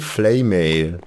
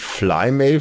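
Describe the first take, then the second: First: The first syllable sounds like 'flay'. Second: The first syllable sounds like 'fly'. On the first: The speaker calls it right. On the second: The speaker calls it wrong. "nicht Flymail"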